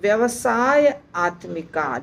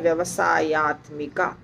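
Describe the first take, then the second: First: It is said as two separate parts. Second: It is said as one joined word.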